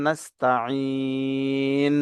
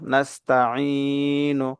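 First: নাস্তাইন with long "ee" closing on a bare n; pausal ending. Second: নাস্তাইনু drawn out, closing on a short "nu"; voweled ending. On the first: Teacher showing how to stop here, নাস্তাইন drawn out to a closed n. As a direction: hold নাস্তাইন three beats, stop on n. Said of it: "এখানে ওয়াকফ করলে". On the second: Teacher spelling out the word for learners, নাস্তাইনু slow with its final vowel. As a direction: stretch the "ee" in নাস্তাইনু, then release into "nu". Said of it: "নুন পেশ নু". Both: Shown as a demonstration.

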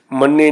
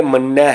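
First: ਮੰਨੇ ending in a close "e"; ਮੰਨੇ with a single-laam e sound; wrong vowel ending. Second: ਮੰਨਿਆ said as "mannai", open ai ending; ਮੰਨਿਆ with the double-laam ai sound. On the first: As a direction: say ਮੰਨੇ with -e, the form being rejected. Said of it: "ਮੰਨਿਆ ਹੈ". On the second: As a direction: end ਮੰਨਿਆ on a wide "ai". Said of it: "ਦੁਲਾਮੀਆਂ ਹਨ". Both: Shown as a demonstration.

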